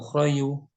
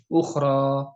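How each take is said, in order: First: The word ends with an added yu sound. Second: The word ends in a long a vowel. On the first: The speaker calls it wrong. "atau ukhrayu" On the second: The speaker calls it right. "Bunyinya alif. Suaranya suara alif"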